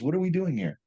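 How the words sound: It is said in a calm, gentle tone. The argument is idealized and polite. The speaker calls it wrong. "You guys Hollywood it right now"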